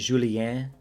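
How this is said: The name is pronounced the French way.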